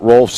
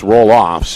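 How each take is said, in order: First: The name is said as one syllable. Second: The name is said as two syllables. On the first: The speaker calls it wrong. "We mispronounced his name earlier this week. It's not Rolfs" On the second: The speaker calls it right. "it's Roloffs"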